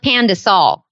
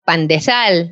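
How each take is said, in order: First: It is said with an American pronunciation. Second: It is said with a Filipino pronunciation. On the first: The speaker calls it wrong. "not pandesal" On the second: The speaker calls it right. "say it right"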